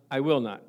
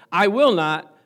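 First: Said in the usual way. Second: "will" hit hard and loud; emphatic I will not. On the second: Shown as a demonstration. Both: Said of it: "That's the emphasis".

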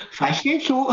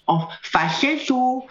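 First: High falsetto through a laugh. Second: High, slow falsetto. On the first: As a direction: giggle it up in head voice. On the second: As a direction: sing it up in head voice. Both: Shown as a demonstration.

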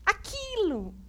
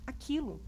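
First: High puppet squeak. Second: Said in the usual way. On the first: Acted. Puppet Mel repeats the pastor's "aquilo" in a high voice. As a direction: blurt it out as the puppet. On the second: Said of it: "pra aquilo".

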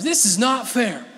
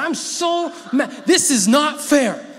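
First: Laughing through the quoted pout; laughing imitation. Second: High, loud pouting whine; imitating a sulky girl. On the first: Preacher repeating his girls' complaint while laughing. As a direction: let the giggle break the whine. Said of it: "That's what they say sometimes". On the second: Preacher imitating his girls complaining, loud pouting whine. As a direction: whine it like a daughter who lost the argument. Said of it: "this is like what our girls say sometimes".

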